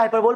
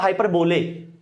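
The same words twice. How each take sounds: First: "हाइपरबोल" said as hyper-bol, ending on a closed "bol"; correct pronunciation. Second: "हाइपरबोले" said as hyper-bo-lay, with an extra "e" at the end; teacher's own version. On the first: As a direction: say "हाइपरबोल" with no final vowel after bol. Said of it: "इसका pronunciation होता है हाइपरबोल". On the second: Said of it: "पर मैं से बोलता हूं हाइपरबोले". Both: Shown as a demonstration.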